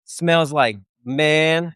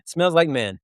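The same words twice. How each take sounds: First: Slow, savoring drawl on smells like man; drawn out. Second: Said in the usual way. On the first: Shown as a demonstration. Telling buddies about the barracks tent, slow and savoring. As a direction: stretch every word of smells like man.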